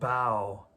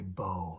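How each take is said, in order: First: The word rhymes with cow. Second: The word rhymes with go. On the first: It means bending forward in respect. The speaker calls it wrong. "I mispronounced that" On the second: It means the weapon used in archery. The speaker calls it right. "I should say bow"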